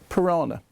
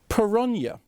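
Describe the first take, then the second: First: The stress is on the first syllable. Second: The stress is on the second syllable. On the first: The speaker calls it wrong. "not the commonly heard piranha" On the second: The speaker calls it right. "correctly pronounced piranha, with the accent on the second syllable"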